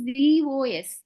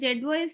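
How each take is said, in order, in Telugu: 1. మొదటి అక్షరాన్ని zee అని పలుకుతారు. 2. మొదటి అక్షరాన్ని zed అని పలుకుతారు. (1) "దీని ప్రొనౌన్సియేషన్ జీఓఎస్" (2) "ఇక్కడ జెడ్ఓఎస్ అని ఉంది కదా"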